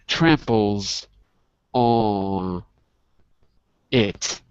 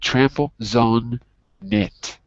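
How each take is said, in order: First: Each word is said separately, without linking. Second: The final sounds link onto the following words. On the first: The speaker calls it wrong. "Not tramples on it" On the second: The speaker calls it right. "but trample, zone, knit"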